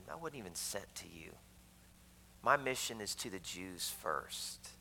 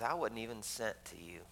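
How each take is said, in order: First: Soft repeated quote. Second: Said in the usual way. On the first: Retold or imitated. Preacher repeating Christ's words to the woman, very softly. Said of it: "Christ said". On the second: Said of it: "he looks at her and says".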